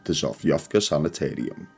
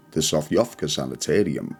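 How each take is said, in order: Both takes have the same delivery.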